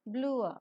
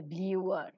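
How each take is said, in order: First: BLUER without a Y sound, BLOO-uh; teacher's model BLUER, said bloo-uh; corrected BLUER. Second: BLUER with a Y glide, BLYOO-er; Indian pronunciation of BLUER. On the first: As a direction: glide from OO to UH in BLUER, dropping the R. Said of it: "ear sound is not pronounced, it is". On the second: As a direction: slip a Y sound into BLUER, as many Indian speakers do. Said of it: "Most of the Indian pronunciations". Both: Shown as a demonstration.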